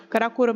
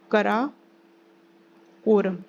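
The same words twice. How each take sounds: First: Said in the usual way. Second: Karakoram in two slow parts, long pause before quorum; slow dictation. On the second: Shown as a demonstration. Teacher names the range for students, Karakoram slowly broken in two. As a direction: spell out Karakoram by ear, very slowly.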